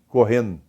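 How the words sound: The -ndo ending is reduced to a nasal sound.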